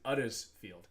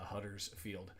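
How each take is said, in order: First: The word begins without an H sound. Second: The word begins with an H sound.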